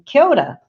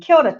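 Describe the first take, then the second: First: It is said in a warm, thankful tone. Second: It is said in a casual, familiar tone. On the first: It thanks someone for a gift. "if you give me something that I'm appreciative of" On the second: It greets a well-known friend. "because I've got to know you quite well"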